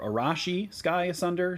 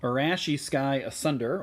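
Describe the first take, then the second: First: "Arashi" said with an open ah, a-RAH-shee; "Arashi" redone carefully with a broad ah; corrected pronunciation. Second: "Arashi" said with a flat Midwest a, a-RASH-ee; "Arashi" with the first a as in cash; Midwest pronunciation. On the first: Shown as a demonstration. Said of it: "sorry, my Midwest accent is sort of creeping in there". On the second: Real, not acted. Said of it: "my Midwest accent is sort of creeping in there".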